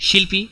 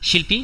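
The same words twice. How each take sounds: Both takes have the same delivery.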